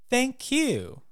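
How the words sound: The stress is on the word you. It is the other person who deserves thanks.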